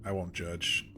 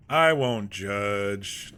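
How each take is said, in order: First: Said in the usual way. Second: Very slow, louder, stretched out; drawn-out. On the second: Shown as a demonstration. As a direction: stretch every word out mockingly. Repeats the line drawn out.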